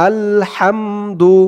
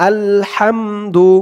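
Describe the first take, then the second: Both takes have the same delivery.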